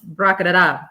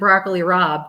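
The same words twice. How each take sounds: First: It is pronounced in an older Italian-family way. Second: It is pronounced in the ordinary American way. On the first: "It's broccoli Rob" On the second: "broccoli Rob isn't broccoli Rob to my grandmom"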